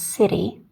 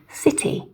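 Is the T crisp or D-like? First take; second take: D-like; crisp. First: The T sounds more like a D. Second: The T is a clean, crisp T. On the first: "an American would pronounce these more as city" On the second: "very clean, crisp T for British English"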